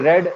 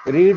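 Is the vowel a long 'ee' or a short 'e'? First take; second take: short e; long ee. First: The vowel is a short 'e' sound. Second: The vowel is a long 'ee' sound. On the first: It is the past form. "रेड पढ़ते हैं ना" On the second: It is the present tense. "इसको हम रीड पढ़ते हैं ना"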